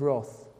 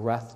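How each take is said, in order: First: "wrath" with a rounded vowel, like "roth"; British pronunciation of wrath. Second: "wrath" with a short a, like "rath"; alternative pronunciation of wrath. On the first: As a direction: say "wrath" to rhyme with "cloth". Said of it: "or wrath, depending on your pronunciation". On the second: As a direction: say "wrath" to rhyme with "math". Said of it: "depending on your pronunciation". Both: Shown as a demonstration.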